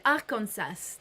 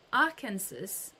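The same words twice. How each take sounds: First: Arkansas said as "ar-kon-SASS"; French pronunciation. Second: Arkansas said like "AR-kan-sus"; unsure American attempt. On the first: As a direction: say Arkansas the French way, full vowels and a sounded final s. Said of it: "I'll just say it the French way". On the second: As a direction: try Arkansas the American way, ending in a weak "sus". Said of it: "I don't know how you say it with". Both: Shown as a demonstration.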